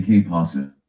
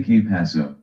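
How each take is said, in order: First: "Que pasa" ending on an ah sound; rejected pronunciation. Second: "Que paso" ending on an oh sound; preferred pronunciation. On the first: Correcting someone's Spanish, "Que pasa" the rejected way. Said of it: "You don't say". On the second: Correcting someone's Spanish, "Que paso" the preferred way. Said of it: "You say". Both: Shown as a demonstration.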